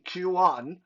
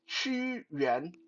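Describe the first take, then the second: First: The name is said with an anglicized pronunciation. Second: The name is said with a Mandarin pronunciation. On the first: The speaker calls it wrong. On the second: The speaker calls it right. "it's it's pronounced Qu Yuan"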